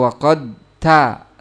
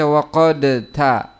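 First: The d is held separately without a bounce. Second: The d is released with an echoing bounce. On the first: "tidak diidgham, tidak diqalqalahkan" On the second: "Tidak boleh untuk dibaca"

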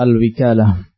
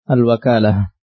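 First: The first vowel is an 'i' sound. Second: The first vowel is an 'a' sound. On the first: "bisa dibaca dengan kasrah" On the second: "bacaan yang masyhur adalah dengan fathah"

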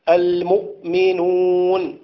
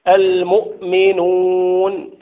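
The two takes are said the same way.

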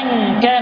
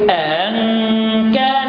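First: The word begins with a single glottal stop. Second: The word's second glottal stop is softened. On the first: "بدل ما يقرأها أن كان ذا مال" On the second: "يقرأ بالتشفيع مع التسهيل"

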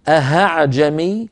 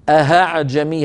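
First: The second glottal stop is replaced by an h sound. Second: The second glottal stop is replaced by an h sound.

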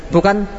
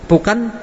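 The two takes are said the same way.

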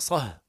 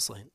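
First: The word ends without an n sound. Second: The word ends with an added n sound. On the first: It asks for silence about a specific matter. "إذا أراد السكوت عن كلام معين" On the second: It asks for silence about anything at all. "وإذا أراد عدمه"

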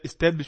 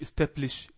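First: The word is said with a B sound. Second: The word is said with a P sound. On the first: The speaker calls it right. "establish بي فور بوك" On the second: The speaker calls it wrong. "مش establish"

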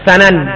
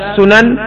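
First: The first vowel is an 'a' sound. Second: The first vowel is not an 'a' sound. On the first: The speaker calls it right. "bagusan dibaca sanan" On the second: The speaker calls it wrong. "dibaca sunan"

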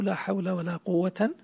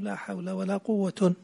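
First: The last word ends in an. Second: The last word ends in un. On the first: "والنصب" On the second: "والرفع"

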